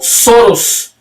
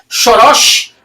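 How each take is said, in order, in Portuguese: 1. O sobrenome recebe a pronúncia inglesa. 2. O sobrenome recebe a pronúncia húngara. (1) "conciliou suas relações americanas e inglesas pronunciando Soros" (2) "a pronúncia do sobrenome húngaro seja Soros"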